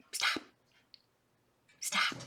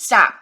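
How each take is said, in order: First: Soft, low-volume order to a pet; quiet little scold; hushed command. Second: Loud, sudden order to a pet; abrupt raised-voice scold; sharp command. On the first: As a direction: tell the pet quietly to quit. Repeats order to pet, softly. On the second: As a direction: cut the pet off with one loud word. Orders pet to stop pawing. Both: Real, not acted.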